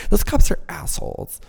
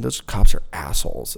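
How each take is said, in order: First: Put-on higher valley girl voice with "cops" stressed, falling on "assholes"; mocking the innocent-camp viewer in a valley girl voice. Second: A hint of valley girl on "Those cops are assholes"; lightly valley-girl "Those cops are assholes", falling at the end; understated valley girl voice. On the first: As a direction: push "Those cops are assholes" up into full valley girl. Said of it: "talking like a valley girl". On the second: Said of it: "I talk like a fucking valley".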